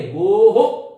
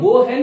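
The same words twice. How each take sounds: First: गो हो said with an "o" echo after the h, louder; गोः said as "go ho"; correct visarga. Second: गो है said as two words ending in "hai", louder; mock the wrong "go hai"; गो है with a full "hai"; wrong visarga. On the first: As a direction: stress the "ho" ending. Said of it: "इसको हम". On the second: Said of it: "नहीं बोलेंगे". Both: Shown as a demonstration.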